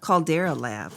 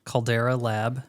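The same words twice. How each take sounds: First: Caldera echoed back, falling at the end; repeating the name. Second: Caldera said KAHL-deh-ruh, clear and even; correct pronunciation. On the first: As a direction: repeat Caldera as kahl-DEH-ruh, settling down. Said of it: "how do you say it?". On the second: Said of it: "That's not how you pronounce it". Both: Shown as a demonstration.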